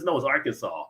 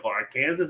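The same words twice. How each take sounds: First: "Arkansas" said ARK-an-saw, firm falling correction. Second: "Arkansas" said like Kansas with a rising question; Arkansas confusion. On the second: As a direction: asks "Arkansas?" sounding it out as ar-Kansas. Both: Retold or imitated. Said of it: "'cause they're like".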